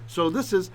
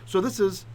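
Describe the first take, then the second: No difference in how they are said.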